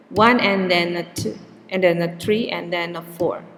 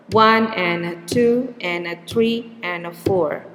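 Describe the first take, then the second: First: Beats on one, two, three, four with extra words squeezed between; stress-timed rhythm. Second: Beats on one, two, three, four, the rest squeezed; stress-timed rhythm. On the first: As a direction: fit "and then a" into the same beat. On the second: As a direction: keep the numbers on an even beat. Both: Shown as a demonstration. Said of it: "what is called a stress time language".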